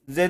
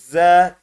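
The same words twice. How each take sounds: First: The vowel is short and clipped. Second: The vowel is drawn out long. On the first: The speaker calls it wrong. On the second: The speaker calls it right.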